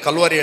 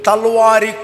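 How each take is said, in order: First: The word begins with a k sound. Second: The word begins with a t sound. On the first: The speaker calls it right. "ಈಗ ಕಲ್ವಾರಿ ಹೇಳ್ತಾನೆ ಅವನು" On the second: The speaker calls it wrong. "ಅವನಿಗೆ ಆಗ ಕಾ ಉಚ್ಚಾರ ಬರ್ತಿರ್ಲಿಲ್ಲ"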